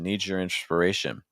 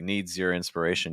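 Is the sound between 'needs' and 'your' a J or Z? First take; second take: J; Z. First: The Z and Y blend into a J sound. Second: A clear Z sound is kept before 'your'. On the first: "it becomes like a J" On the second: "You could also keep the Z"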